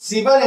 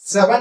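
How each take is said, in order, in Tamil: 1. முதல் உயிர் எழுத்து 'i' ஒலி. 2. முதல் உயிர் எழுத்து 'e' ஒலி. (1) "இகரம் எகரமாக மாறுச்சுன்னா" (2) "சிகரம் செகரமாக மாறுச்சுன்னா"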